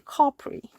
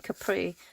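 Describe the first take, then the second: First: It is said in an imitated posh accent. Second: It is said in her own ordinary accent.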